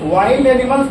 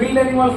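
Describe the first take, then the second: First: The vowel in 'wild' sounds like 'eye'. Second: The vowel in 'wild' is a short 'i'. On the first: The speaker calls it right. "वाइल्ड animals पढ़ते हैं इसको" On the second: The speaker calls it wrong. "विल्ड animals नहीं पढ़ते"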